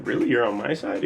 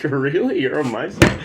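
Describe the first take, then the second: First: Said in the usual way. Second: Laughing disbelief. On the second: Retold or imitated. Retelling surprise, laughing.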